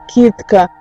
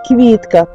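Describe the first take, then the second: First: There is no v sound after k. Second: A v sound follows the first k. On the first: This is the old village way of speaking. "як говорили" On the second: This is how people speak now. "А тепер"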